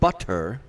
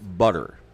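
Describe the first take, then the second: First: The middle consonant is a crisp T sound. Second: The middle consonant is a soft D sound. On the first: "instead of butter" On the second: "just the T replaced with a D"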